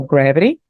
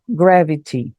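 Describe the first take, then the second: First: American GRAVITY, sounding like "gravery". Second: GRAVITY with a clear, true T; slow GRAVITY, T fully sounded the British way. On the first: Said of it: "a pronúncia do americano". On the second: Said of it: "o T continua tendo o som de T". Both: Shown as a demonstration.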